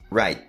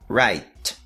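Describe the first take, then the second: First: The final T is held without releasing air. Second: The final T is clearly released with air. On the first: "a forma mais comum do dia a dia" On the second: "T pronunciado da maneira mais exagerada"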